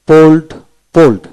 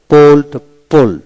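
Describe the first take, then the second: No difference in how they are said.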